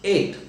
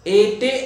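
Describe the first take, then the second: First: The word ends on the t sound. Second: A vowel sound follows the final t. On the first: The speaker calls it right. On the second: The speaker calls it wrong. "एटे असं बोलत नाही आपण"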